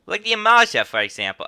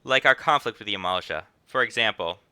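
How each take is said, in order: First: High, loud New York jump on "Amalj'aa"; exaggerated New York accent attempt. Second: Hint of rich New York accent; slight New York accent. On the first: Innkeeper gives an example, hammed-up New York accent. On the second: Innkeeper explains the conflict, slight New York accent. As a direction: lightly read it as a rich New Yorker. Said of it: "Slightly rich New York accent vibes".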